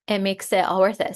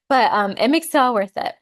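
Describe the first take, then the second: First: Said in the usual way. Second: Choked up, louder and emotional; pushing through tears; teary-eyed. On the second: Real, not acted. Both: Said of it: "I'm getting teary-eyed".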